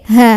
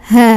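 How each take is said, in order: No difference in how they are said.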